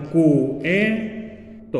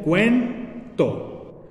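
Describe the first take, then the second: First: "cuento" broken into three beats, "cu", "e", "to"; wrong syllable split. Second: "cuento" in two beats, "cuen", pause, "to"; correct syllable split. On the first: Teacher shows how many people would separate it, "cuento" as cu-e-to. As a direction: pull the "u" and "e" of "cuento" apart. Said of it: "la quisieran separar como". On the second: Teacher shows how the diphthong separates, "cuento" as cuen-to. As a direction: keep "cuen" as one syllable, then "to". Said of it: "se separaría como". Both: Shown as a demonstration.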